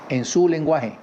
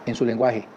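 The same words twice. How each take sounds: First: Su lifted and pressed, falling at the end; stress on su. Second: Said in the usual way. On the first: Shown as a demonstration. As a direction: lean on su in "en su lenguaje". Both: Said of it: "Y así es como usted debe relacionarse".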